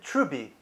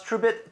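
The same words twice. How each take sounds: First: Trubi with the last t left off; dropped final t. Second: Said in the usual way. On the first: Shown as a demonstration. Showing how Truebit would be pronounced, no t on Trubi. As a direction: end Trubi on an open bee. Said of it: "They would pronounce Truebit". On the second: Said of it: "how a Chinese person would pronounce".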